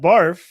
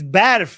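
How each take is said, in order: First: The word is said with an English pronunciation. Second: The word is said with a Persian pronunciation. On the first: It is the English slang word for vomit. The speaker calls it wrong. "not barf" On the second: It is the Persian word for snow. The speaker calls it right. "It's barf"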